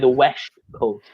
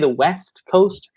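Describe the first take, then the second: First: West is said with an sh sound. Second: West is said with a plain s sound. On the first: The speaker calls it right. "you say the West Coast ... So the S H" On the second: The speaker calls it wrong. "you don't say the West Coast"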